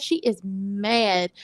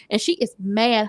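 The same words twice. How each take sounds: First: "She is mad" drawn out slowly, each word weighted; slow emphatic. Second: Said in the usual way. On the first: Shown as a demonstration. Recapper answering her own question, slow and emphatic. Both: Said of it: "How mad?".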